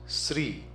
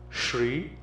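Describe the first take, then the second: First: It begins with a plain s sound. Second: It begins with a palatal sh sound. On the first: The speaker calls it wrong. "the pronunciation comes Sri" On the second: The speaker calls it right. "It's a palatal sound sh"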